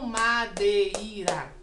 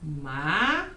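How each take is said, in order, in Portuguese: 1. O e e o i são separados em duas sílabas. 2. O e e o i ficam juntos numa só sílaba. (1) "E não madeira" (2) "O som sai junto"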